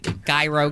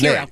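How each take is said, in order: First: The word begins with a J sound. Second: The word begins with an H-like sound. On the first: This is how many people commonly say it. The speaker calls it wrong. "A lot of people say gyro" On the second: This is the actual pronunciation. The speaker calls it right. "it's pronounced hero"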